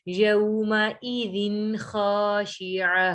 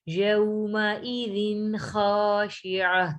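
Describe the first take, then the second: The two takes are said the same way.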